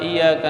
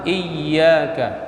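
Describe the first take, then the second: First: The 'y' sound is short and single. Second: The 'y' sound is held and doubled. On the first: The speaker calls it wrong. "Jangan terbaca iyyaka" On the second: The speaker calls it right. "baca yang sempurna iyyaka"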